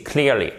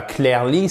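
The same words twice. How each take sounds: First: "clearly" as KLEER-lee, falling; correct English pronunciation. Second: "clearly" as klair-lee, rising; French-style mispronunciation. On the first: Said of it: "c'est clearly". (« clearly » à l'anglaise, KLIIR-li) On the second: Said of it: "c'est pas clearly". (« clearly » prononcé « clair-li », à la française) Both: Shown as a demonstration.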